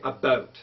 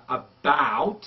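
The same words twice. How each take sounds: First: "about" with a closed, tight ou vowel, Canadian style. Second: "about" with a wide open ow vowel, American style. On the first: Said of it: "In Canadian English ... they say about". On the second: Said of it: "in American English". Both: Shown as a demonstration.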